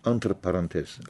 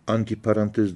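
First: The first word ends in an 'r' sound. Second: The first word ends in an 'i' sound. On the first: The speaker calls it right. "Antır, Fransızca arasında" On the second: The speaker calls it wrong. "Anti parantez değil de yanlış telaffuz ediyoruz"

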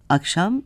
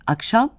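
First: The word is said without a clear stress. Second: The last syllable carries a clear stress. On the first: The word names the time of day as a thing. "belirteç değildir ve vurgusuzdur" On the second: The word tells when something happens. "Vurgu, zaman belirtecinin son hecesindedir"

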